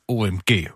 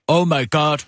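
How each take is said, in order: First: It is spoken as three separate letters. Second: It is spoken as three full words. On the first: The speaker calls it wrong. "Man siger ikke OMG" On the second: The speaker calls it right. "Man siger det hele"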